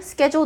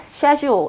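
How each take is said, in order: First: It is said in the common accent. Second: It is said in an Australian accent. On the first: "한국에서도 많이 쓴 schedule" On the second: "호주 분이 ... 이런 발음을 하시더라고요"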